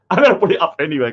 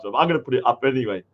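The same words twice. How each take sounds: First: Rushed, through a chuckle; laughing. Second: Said in the usual way. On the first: Real, not acted. Streamer giggles to chat about posting fake art, laughing. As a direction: laugh it out quickly.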